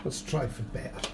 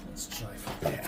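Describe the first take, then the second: First: Said in the usual way. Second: Breathy whispered repeat, much softer. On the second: Shown as a demonstration. Toy builder repeating himself to camera, whispered. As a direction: hush it right down, no voice.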